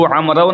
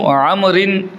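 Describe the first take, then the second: First: The word ends in a 'w' sound. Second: The word ends in an 'in' sound. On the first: The speaker calls it wrong. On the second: The speaker calls it right.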